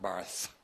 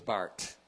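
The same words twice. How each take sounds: First: The name is said with a non-Swiss pronunciation. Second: The name is said with a Swiss pronunciation. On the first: The speaker calls it wrong. "not Barth" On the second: The speaker calls it right. "Swiss pronunciation. He was a Swiss theologian. Is Barth"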